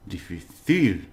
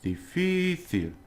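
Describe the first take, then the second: First: The stress falls on the last syllable. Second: The stress falls before the last syllable. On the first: The speaker calls it wrong. "otherwise it would be um" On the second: The speaker calls it right. "but it's not, it's difícil"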